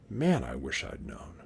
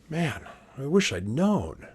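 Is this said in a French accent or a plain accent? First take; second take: plain; French. First: It is said in a plain, unaccented voice. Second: It is said in a French accent. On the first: "You think Custer would have said that?" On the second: "Napoleon, with a French accent"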